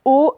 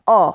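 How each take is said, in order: First: O fermé, appuyé fort; son O fermé. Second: O ouvert, appuyé fort; son O ouvert. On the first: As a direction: dire le O bien fermé. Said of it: "le O fermé". (O fermé, prononcé avec force) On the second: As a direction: dire le O bien ouvert. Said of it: "le O ouvert". (O ouvert, prononcé avec force) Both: Shown as a demonstration.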